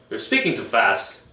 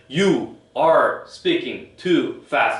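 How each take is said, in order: First: Some words are strong and others weak. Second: Every word gets equal strong stress. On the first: The speaker calls it right. "리듬이 있어요. 강한 강한 쪽이 있고 약한 쪽이 있어요" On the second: The speaker calls it wrong. "이렇게 하나 하나 하나 하나 강조를 주지 않아요. ... 이렇게 안 하죠"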